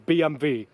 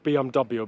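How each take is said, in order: First: The letters are said with German letter names. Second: The letters are said with English letter names. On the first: The speaker calls it right. "in the German version is B M W" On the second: The speaker calls it wrong. "not B M W"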